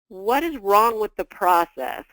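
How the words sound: It sounds calm and curious.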